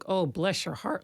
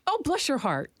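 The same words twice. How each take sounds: First: It sounds pitying and condescending. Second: It sounds sweet and sincere.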